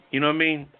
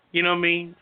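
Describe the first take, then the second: No difference in how they are said.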